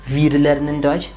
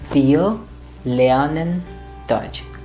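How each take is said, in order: First: The R in wir is a consonant. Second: The R in wir is a vowel. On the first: The speaker calls it wrong. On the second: The speaker calls it right.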